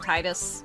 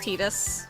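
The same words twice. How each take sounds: First: The first syllable sounds like 'tie'. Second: The first syllable sounds like 'tee'. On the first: The speaker calls it wrong. "and not Titus" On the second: The speaker calls it right. "that's why it's pronounced Titus"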